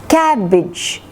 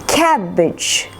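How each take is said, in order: The two takes are said the same way.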